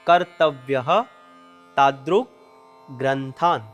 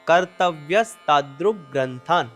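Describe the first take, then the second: First: It is said as three separate words. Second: It is said as one joined word. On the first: "એમાં છૂટા છૂટા ત્રણ શબ્દો છે" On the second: "આખો શબ્દ ભેગો થઈ ... આ રીતે તેનું ઉચ્ચારણ કરવાનું છે"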